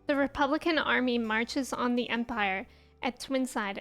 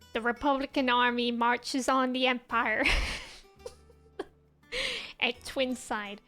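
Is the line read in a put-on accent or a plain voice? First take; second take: plain voice; put-on accent. First: It is read in the speaker's plain voice. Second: It is read in a put-on accent.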